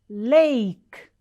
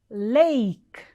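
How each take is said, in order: No difference in how they are said.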